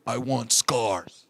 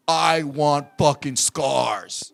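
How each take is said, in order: First: Low, drawn-out delivery; grave demand. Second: Low, very slow, each word weighted; insistent grave demand. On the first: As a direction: imitate a wrestler solemnly stating his demand. Quoting Vince's grave request. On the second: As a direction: repeat the demand slowly, leaning on "fucking". Vince repeats demand more forcefully. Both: Retold or imitated.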